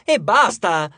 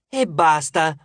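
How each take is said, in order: First: Loud, exasperated snap; raised, impatient burst; outburst. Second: Milder echo of an outburst; lightly exasperated echo; agreeing echo. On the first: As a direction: cut them off loudly, fed up. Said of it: "sbottò Hazel". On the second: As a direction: repeat it in agreement, less forcefully. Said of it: "concordò Echo". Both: A narrator's reading.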